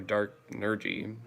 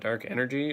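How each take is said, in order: First: The second word starts with an 'n' sound. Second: The second word starts with a vowel sound. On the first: "or Dark Nergy" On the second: "I should be pronouncing that Dark Energy"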